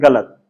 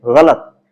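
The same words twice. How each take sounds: First: गलत said with a hard g, galat; गलत mispronounced as galat, the way learners usually say it; common mispronunciation. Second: गलत said with a throaty gh at the start, ghalat; गलत pronounced ghalat as the teacher models it; correct nukta pronunciation. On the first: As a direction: say गलत without the nukta, as galat. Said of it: "जबकि हम बोलते हैं". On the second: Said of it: "गलत बोला जाना चाहिए". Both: Shown as a demonstration.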